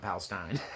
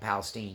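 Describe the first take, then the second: First: Palestine is pronounced the usual, non-Texas way. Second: Palestine is pronounced the way Texans say it. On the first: "not Palestine" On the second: "In Texas, we call them Palestine"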